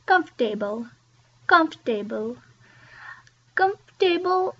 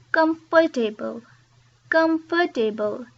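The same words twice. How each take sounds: First: Comfortable said "comf-ta-ble", dropping the "or"; comfortable, lose a syllable; comfortable, three syllables. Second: Comfortable with every syllable spelled out; "com-for-ta-ble", each syllable said; four-syllable comfortable. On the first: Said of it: "it's not ... it's". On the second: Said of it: "want to say every syllable". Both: Shown as a demonstration.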